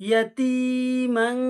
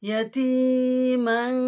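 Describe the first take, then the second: The two takes are said the same way.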